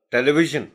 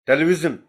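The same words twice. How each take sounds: First: ٹیلی ویژن with the three-dot ژ sound; correct zh sound. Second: ٹیلی ویژن said with a hard z, like vizen; mock the mistake: ٹیلی ویژن with z instead of zh; ٹیلی ویژن mispronounced as tele-vizen; wrong z sound. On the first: Shown as a demonstration. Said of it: "اب یہاں ویژن کی sound ہے". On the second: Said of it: "میں نے سنا ہے کچھ لوگوں کو".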